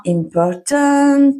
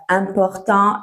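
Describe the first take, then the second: First: Important said the English way, stress on the second syllable, slowed right down; English pronunciation. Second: Important said the French way, nasal ending, stress on the last syllable; French pronunciation. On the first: Teacher contrasting the English word for learners, slow English pronunciation. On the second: Teacher showing learners the French word first, French pronunciation. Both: Shown as a demonstration. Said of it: "la prononciation ... totalement différente".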